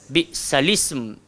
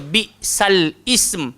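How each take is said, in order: First: The words flow together without any glottal catch. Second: The word ism starts with a glottal catch. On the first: The speaker calls it right. "So kita baca" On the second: The speaker calls it wrong. "jangan baca bi sal ism"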